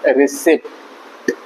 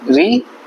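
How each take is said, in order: First: रिसिप्ट drawn out slowly, p sounded; slow spelling-out. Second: रिसीट said riseet, p silent, raised; correct pronunciation. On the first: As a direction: read रिसिप्ट slowly letter by letter. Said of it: "इसको क्या". (रिसिप्ट, धीरे-धीरे पी बोलकर) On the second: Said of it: "पढ़ा जाएगा". (रिसीट, पी silent, ऊँचे स्वर में) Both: Shown as a demonstration.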